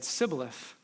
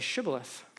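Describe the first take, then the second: First: The word begins with an s sound. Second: The word begins with an sh sound. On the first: The speaker is an outsider. "unable to say sh, when they said sibboleth" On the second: The speaker belongs to the group. "say shibboleth"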